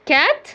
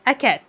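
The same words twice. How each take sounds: First: كات said alone, high and questioning; wrong version. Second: أكات said plainly with the article; correct version. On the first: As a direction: offer كات as the mistake. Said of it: "غلط، لازم أقول أكات". (كات كإجابة غلط) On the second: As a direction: give أكات as the right answer. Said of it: "لازم أقول أكات". (أكات بنطق صحيح) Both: Shown as a demonstration.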